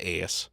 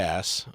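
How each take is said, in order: First: The vowel is drawn out, sounding like 'ace'. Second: The vowel is a short flat 'a'. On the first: This is the hometown way others mocked. The speaker calls it wrong. "not ass" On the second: This is the way practiced away from home. The speaker calls it right. "now I can say ass"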